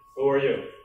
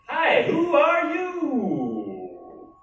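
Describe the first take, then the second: First: It is said in a plain, neutral tone. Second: It is said in a cheerfully annoying tone.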